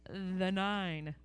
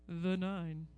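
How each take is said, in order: First: It is said in a normal speaking voice. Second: It is said in a put-on deep voice.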